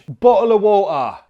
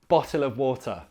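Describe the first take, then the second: First: It is spoken in a broad Cockney accent. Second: It is spoken in a plain London accent. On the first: "In Cockney" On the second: "standard boring London man"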